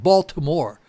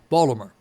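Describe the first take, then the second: First: The name is said the outsider way. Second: The name is said the local way. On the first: The speaker is not from the city. The speaker calls it wrong. "it's not Baltimore. That's the way people not from there say it" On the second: The speaker is from the city. The speaker calls it right. "The people who are from there say Baltimore"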